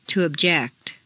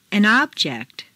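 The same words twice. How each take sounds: First: ObJECT, stressed on the second syllable. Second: OBject, stressed on the first syllable. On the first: Teacher models verb "object", second-syllable stress. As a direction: hit JECT in "object". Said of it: "to the second syllable". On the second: Teacher models noun "object", first-syllable stress. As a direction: hit OB in "object". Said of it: "first syllable for nouns". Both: Shown as a demonstration.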